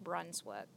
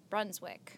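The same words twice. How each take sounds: First: Brunswick slipping into "Brunswook"; mispronounced ending. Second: Said in the usual way. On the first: Real, not acted. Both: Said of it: "I don't know why I said wook".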